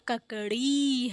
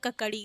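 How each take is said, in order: First: The final vowel is long. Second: The final vowel is short. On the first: The speaker calls it right. "इसमें भी बड़ी की मात्रा ड़ा में लगी है ना" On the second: The speaker calls it wrong. "अगर इसमें छोटी की मात्रा लगती तो ककड़ी ककड़ी होता, ककड़ी गलत होता"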